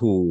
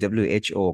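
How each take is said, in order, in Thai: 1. ออกเสียงเป็นคำเดียวทั้งคำ 2. สะกดออกทีละตัวอักษร (1) "เราจะไม่ออกเสียงว่า" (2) "มันคือ"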